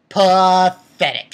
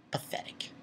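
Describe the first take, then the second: First: Loud, drawn-out contempt; slow, loud, scornful verdict; emphatic scorn. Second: Whispered, barely voiced scorn; hushed, scornful whisper; contemptuous whisper. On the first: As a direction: stretch the word out slowly and loudly. Repeats whispered word loud, drawn out. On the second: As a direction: whisper it in disgust. Same word whispered, then drawn out. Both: Real, not acted.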